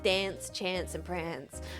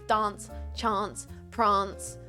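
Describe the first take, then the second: First: It is said in an east coast Australian accent. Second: It is said in a South Australian accent.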